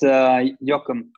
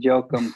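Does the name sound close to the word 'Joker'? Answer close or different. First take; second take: different; close. First: The name sounds clearly different from Joker. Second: The name sounds close to the word Joker. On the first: The speaker calls it right. "No, it's Joakum" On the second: The speaker calls it wrong. "I'm too close to the Joker with the Joakum"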